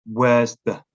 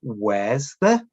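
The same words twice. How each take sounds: First: "Where's the?" with the r sounded, as in wherrs; the careful "Where's the?" with a clear r; modelled pronunciation. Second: The easy "Where's the?" a learner might say; modelled pronunciation. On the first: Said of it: "rather than". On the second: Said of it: "This is important". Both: Shown as a demonstration.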